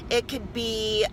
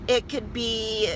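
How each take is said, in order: Both takes have the same delivery.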